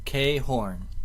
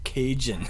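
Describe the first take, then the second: First: It is said with an h sound, like ka-hon. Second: It is said with a j sound, like Cajun. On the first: The speaker calls it right. "K Horn, not Cajun" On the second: The speaker calls it wrong. "not Cajun"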